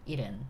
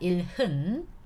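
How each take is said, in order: First: The l links straight into the second syllable. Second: An h sound begins the second syllable. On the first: The speaker calls it right. "you have to pronounce it 일은" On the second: The speaker calls it wrong. "not 일흔"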